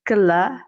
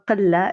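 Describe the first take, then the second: First: It uses a general, non-local pronunciation. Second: It uses the local Tunisian pronunciation.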